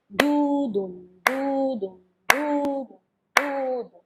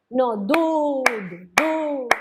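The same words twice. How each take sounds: First: Evenly paced sung "du-dum" pairs; sung, demo of level swung syllables; sung, even scat eighths. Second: Sung, long "du" with a short trailing "dum"; sung, stretch "du" slowly, squeeze "dum" after it; sung, wrong scat figure. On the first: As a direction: chant "du-dum" steadily with a light accent on "du". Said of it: "lo más parejo posible". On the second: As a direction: demo of a distorted sung rhythm. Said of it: "eso es lo que me están haciendo". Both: Shown as a demonstration.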